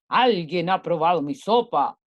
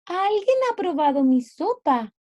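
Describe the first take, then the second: First: It is said in a hoarse voice. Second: It is said in a soft voice.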